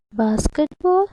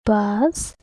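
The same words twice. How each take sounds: First: Said in the usual way. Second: BASKETBALL in three beats, bas - ket - ball; long pauses between the parts of BASKETBALL; syllable by syllable. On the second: Shown as a demonstration. Teacher showing kids it has three syllables, syllable by syllable. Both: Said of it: "How many syllables does it have?".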